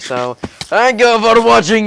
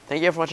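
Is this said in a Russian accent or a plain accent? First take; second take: Russian; plain. First: It is spoken in a put-on Russian accent. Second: It is spoken in the speaker's normal accent.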